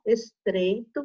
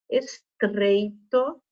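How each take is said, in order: First: The R sound is light and natural. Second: The R sound is forced and exaggerated. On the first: The speaker calls it right. "A gente fala" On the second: The speaker calls it wrong. "A Pro só está dando essa forçadinha no R para vocês perceberem"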